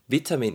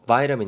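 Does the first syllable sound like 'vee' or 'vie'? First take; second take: vee; vie. First: The first syllable sounds like 'vee'. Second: The first syllable sounds like 'vie'. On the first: "비타민 이렇게 발음도 되고" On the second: "바이라민 이렇게도 발음이 됩니다"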